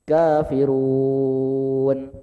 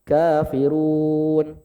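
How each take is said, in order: First: The final long vowel is held six counts. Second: The final long vowel is held four counts.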